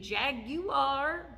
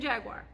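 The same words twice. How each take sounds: First: The u sound after the g is pronounced. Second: The u sound after the g is dropped. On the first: The speaker calls it right. "It should be Jaguar" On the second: The speaker calls it wrong. "I'm saying Jaguar. I'm from South Texas. I skip out on the U"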